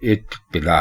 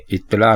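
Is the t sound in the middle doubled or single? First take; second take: doubled; single. First: The middle t sound is held and doubled. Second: The middle t sound is short and single. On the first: The speaker calls it right. "दो तोए आपके जबान से अदा होती हुई महसूस हो" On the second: The speaker calls it wrong. "इत्तिला नहीं"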